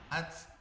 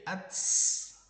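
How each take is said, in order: First: The t is released with just a puff of breath. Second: The t is followed by an added hissing s sound. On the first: The speaker calls it right. "Kayaknya udah saya contohin" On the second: The speaker calls it wrong. "jangan sampai jadi ats ya, berlebihan"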